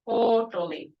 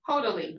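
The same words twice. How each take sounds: First: The o vowel sounds like 'oo' in school. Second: The o vowel sounds like English 'oh'. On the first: The speaker calls it right. "like school" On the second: The speaker calls it wrong. "I hear people say like totally"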